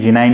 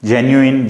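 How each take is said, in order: First: The word ends with an 'ine' sound. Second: The word ends with an 'oo-in' sound.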